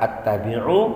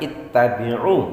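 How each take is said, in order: First: The word begins with an a vowel. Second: The word begins with an i vowel. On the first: The speaker calls it wrong. "bukan dibaca attabi'u" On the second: The speaker calls it right. "kita baca ittabi'u"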